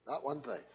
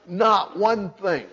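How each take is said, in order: First: "Not one thing" dropped much softer; hushed. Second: "Not one thing" slowly, each word hit; emphatic. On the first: Preacher echoing his point to the congregation, hushed. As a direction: let "Not one thing" fall away softly. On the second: Preacher driving home that law gains nothing, slow and emphatic. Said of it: "is emphatic by position". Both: Shown as a demonstration.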